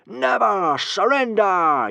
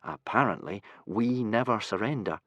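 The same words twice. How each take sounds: First: High, slow, loud war cry with never stressed; much higher, louder chanted battle call; rousing yell. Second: Put-on glum, flat-toned boy; gloomy. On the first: Acted. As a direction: bellow never surrender like a happy crowd. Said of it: "yelled the happy hooligans". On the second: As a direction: sigh out the motto gloomily. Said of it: "said Hiccup gloomily".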